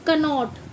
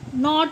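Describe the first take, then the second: First: The word starts with a k sound. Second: The word starts with an n sound. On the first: The speaker calls it wrong. "ना कि" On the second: The speaker calls it right. "नॉट बोलते हैं इसको"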